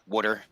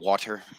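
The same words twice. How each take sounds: First: The first vowel sounds like the vowel in 'wood'. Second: The first vowel sounds like the vowel in 'wash'. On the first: This is the local way of saying it. "we say some very strange words compared to everybody else" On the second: This is how people elsewhere say it. "instead of"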